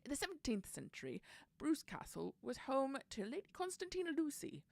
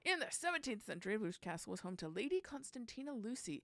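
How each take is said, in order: First: It is read in a put-on English accent. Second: It is read in the speaker's usual accent.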